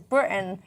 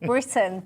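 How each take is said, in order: First: The middle T is dropped, a glottal stop. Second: The middle T is clearly pronounced. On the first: The speaker calls it wrong. "she says Britain" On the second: The speaker calls it right. "instead of Britain"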